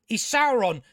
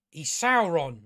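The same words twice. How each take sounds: First: He's Sauron pushed higher and louder, Sauron hit hard; exasperated, hammer the word Sauron; emphatic He's Sauron. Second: Said in the usual way. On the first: Real, not acted. Scolding Galadriel on screen.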